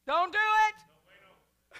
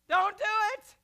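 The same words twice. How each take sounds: First: Much higher and louder, slow; comic loud warning. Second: High loud quick warning; comic loud repeat. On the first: Preacher warning congregation off fear, loud slow comic holler. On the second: Preacher repeating his comic warning, loud and high. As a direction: yell it once more for laughs. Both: Acted.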